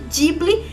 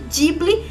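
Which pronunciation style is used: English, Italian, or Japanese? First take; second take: Italian; Italian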